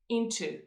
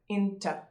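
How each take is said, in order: First: The word ends in a long oo vowel. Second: The word ends in a short uh vowel. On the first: The word is said on its own. "if you say it separately, then you have the long U sound at the end" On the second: The word is said in connected speech. "in the flow of speech, it sounds more like schwa"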